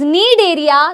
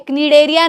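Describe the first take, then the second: First: The word starts with an n sound. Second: The word starts with a k sound. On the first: The speaker calls it right. "This is नीड एरिया" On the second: The speaker calls it wrong. "क्नीडेरिया नहीं है"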